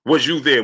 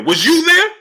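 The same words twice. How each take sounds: First: Said in the usual way. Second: Much higher and louder, rising on "there"; incredulous outburst. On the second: Real, not acted. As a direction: fire "Was you there?" back at him in disbelief. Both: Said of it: "This dude said".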